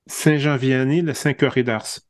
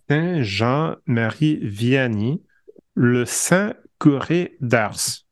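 First: It is said quickly. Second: It is said slowly.

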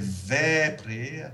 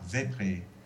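First: The first vowel is held long. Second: The first vowel is kept short. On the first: The speaker calls it right. "c'est vépré" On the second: The speaker calls it wrong. "et non pas vépré"

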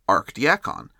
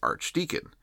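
First: The word is said with 'diacon', archdiacon. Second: The word is said the usual way, archdeacon. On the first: This is the title used in the Indian church context. "in this cultural context, that title is pronounced as archdiacon" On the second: This is the usual title in Western usage. "I haven't forgotten how to pronounce archdeacon"

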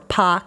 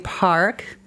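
First: It is said with a Boston accent, dropping the r. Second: It is said with a general, non-Boston accent.

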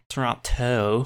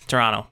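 First: The second T is clearly pronounced. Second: The second T is dropped, local style.

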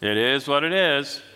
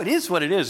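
First: It is said in a heavy, resigned way. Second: It is said in a light, cheerful way. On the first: The speaker has given up in despair. "It's sort of a state of resignation, often maybe even despair" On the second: The situation is accepted lightly. "usually we don't say"

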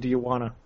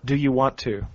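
First: The words 'want to' are reduced to 'wanna'. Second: The words 'want to' are said in full. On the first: "I always say do you wanna?" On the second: "I never say want to"

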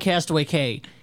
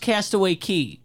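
First: The last word sounds like 'kay'. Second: The last word sounds like 'key'. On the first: The speaker calls it wrong. "Castaway Cay is written Castaway Cay" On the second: The speaker calls it right. "It is actually pronounced Castaway Cay"

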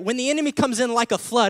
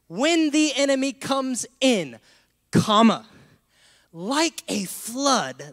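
First: The phrase runs on without a break after 'in'. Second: There is a break right after 'in'. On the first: The enemy is the flood. The speaker calls it wrong. "how we read this with the comma here" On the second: The flood that rises against the enemy is the Spirit's. The speaker calls it right. "The true biblical way to read this is like this"

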